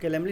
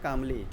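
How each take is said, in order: First: The L sound is pronounced in the word. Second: The L sound is left silent in the word. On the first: The speaker calls it wrong. "कैलेमली नहीं पढ़ते हैं इसको" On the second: The speaker calls it right. "पढ़ते हैं कामली"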